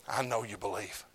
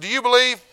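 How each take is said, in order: First: Low, soft and certain; Paul answering quietly to the king; quiet knowing reply. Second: High, loud demanding question; Paul booming his question at the king; loud challenge. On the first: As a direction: drop to a hush. Paul answers his own question. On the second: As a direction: call him out. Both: Retold or imitated.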